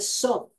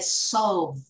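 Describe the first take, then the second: First: The word is said with a blurred vowel and no clear 'l' or 'v', close to 'surf'. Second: The word is said with a clear 'o' vowel, 'l' and 'v', as 'solve'. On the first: The speaker calls it wrong. "We don't say solve" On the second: The speaker calls it right. "We say solve"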